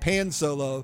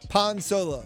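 First: Pan is said with an English vowel. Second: Pan is said with a Spanish vowel. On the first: "if you're reading it in English, it would look like pan solo" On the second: "So I'm using the Spanish pronunciation"

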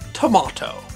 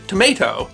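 First: The middle vowel is long and broad. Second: The middle vowel is short and flat. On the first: This is the upper-class affected pronunciation. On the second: This is the older, ordinary pronunciation.

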